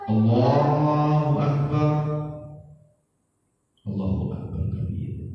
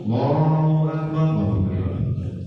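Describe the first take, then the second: First: There is a short pause between the phrases. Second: It runs straight on with no pause.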